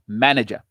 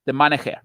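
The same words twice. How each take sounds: First: Said in the usual way. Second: Imitating a Spanish accent on "manager"; put-on Spanish accent. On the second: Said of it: "as he might say in his Spanish accent".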